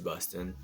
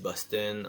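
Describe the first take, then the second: First: It is said with an English accent. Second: It is said with a European French accent. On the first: "en anglais, on dit Boston" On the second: "les Français disent Boston"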